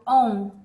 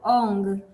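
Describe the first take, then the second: First: The word ends with a plain 'n' sound. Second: The word ends with a nasal 'ng' sound. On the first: The speaker calls it wrong. "On não é Ong" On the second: The speaker calls it right. "é importante a gente é, pronunciar de forma adequada"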